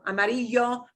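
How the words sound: The ll is a soft y sound. The speaker calls it right. "a straight y sound is good, a little bit of a j, but not strong. ... those are okay"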